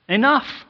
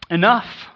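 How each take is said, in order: First: ENOUGH said even higher and louder; second ENOUGH, pushed further up; God's anger at full height; righteous enough, stronger. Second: Loud, rising ENOUGH from God; first call of ENOUGH, firm and raised; a just God calling halt; righteous enough. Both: Acted. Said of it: "in a holy, just, righteous attitude".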